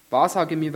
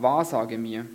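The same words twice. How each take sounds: First: Insistent king begging the medium; urgent repeated plea. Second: Said in the usual way. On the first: Acted. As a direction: push the second wahrsage mir up and out. Saul repeats his plea, pressing harder.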